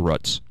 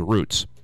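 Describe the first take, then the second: First: Roots is said with the regional vowel. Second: Roots is said with the other common vowel. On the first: This is how people say it where that person comes from. "that's how they would pronounce it where they're from. They would say roots" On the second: This is not how people say it where that person comes from. "They would not say roots"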